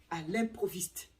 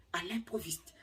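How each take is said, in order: First: Said in the usual way. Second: Breathy whisper of à l'improviste, unvoiced; secretive whispered repeat. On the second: Shown as a demonstration. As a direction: hush the words à l'improviste. Repeats phrase, then whispers it.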